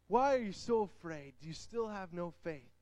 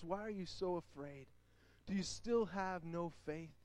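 First: Said in the usual way. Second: Softer, gentle questioning; gentle Jesus voice. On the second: Acted. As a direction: ask tenderly, almost hushed. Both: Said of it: "he said to his disciples".

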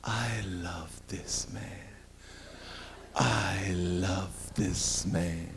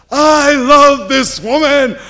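First: Very soft, very slow and low; soft swoon. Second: Loud slow shout, pitched way up; man yelling his love in the courtyard; loud declaration. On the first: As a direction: melt as you say it. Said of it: "She says". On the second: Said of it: "he starts yelling". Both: Retold or imitated.

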